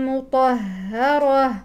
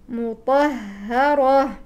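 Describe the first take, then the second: No difference in how they are said.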